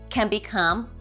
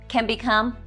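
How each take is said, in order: The two takes are said the same way.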